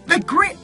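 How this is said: It is read in a put-on motherly voice. The speaker calls it wrong. "in my mommy voice"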